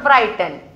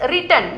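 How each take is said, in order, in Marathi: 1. पहिला स्वर दीर्घ 'eye' आवाज आहे. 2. पहिला स्वर लहान 'ih' आवाज आहे. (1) "not रायटन" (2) "that is रिटन"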